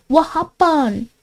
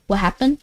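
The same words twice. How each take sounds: First: Higher, drawn-out mock question; playful put-on voice. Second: Said in the usual way. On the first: Streamer repeating her question to a viewer, playful put-on voice. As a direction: stretch it out in a silly higher voice.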